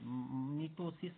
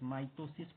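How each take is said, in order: First: The first vowel sounds like 'i' in 'bit'. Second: The first vowel sounds like 'eye' in 'my'. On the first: The speaker calls it wrong. "Sorry मिटोसिस नहीं" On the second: The speaker calls it right. "माइटोसिस पढ़ना है इसको"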